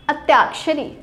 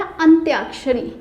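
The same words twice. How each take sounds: First: अत्याक्षरी said with no nasal after अ; wrong form read out. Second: अंत्याक्षरी with a clear nasal अं at the start; correct form. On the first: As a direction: read अत्याक्षरी as written, no न sound. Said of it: "लेकिन अत्याक्षरी नहीं होता". (अत्याक्षरी बिना अनुस्वार के) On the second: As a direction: bring out the अं in अंत्याक्षरी. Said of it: "अंग आता है". (अंत्याक्षरी में अं साफ़ बोलें) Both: Shown as a demonstration.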